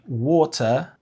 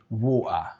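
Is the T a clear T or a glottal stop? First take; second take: clear T; glottal stop. First: The middle T is a clear t sound. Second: The middle T is a glottal stop. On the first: "instead of saying" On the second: "the drop of the T, which is the glottal sound"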